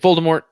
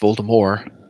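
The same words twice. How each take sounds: First: The name ends with a clear t sound. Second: The name ends without a t sound. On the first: This is the pronunciation used in the films. The speaker calls it wrong. "when they made the movies, they're just like Voldemort" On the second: This is the originally intended pronunciation. The speaker calls it right. "originally Voldemort was supposed to be pronounced Voldemort"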